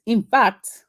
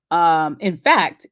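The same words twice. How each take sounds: First: Higher, put-on Nigerian lilt on "in fact"; Nigerian accent. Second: Said in the usual way. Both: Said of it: "my fake Nigerian accent".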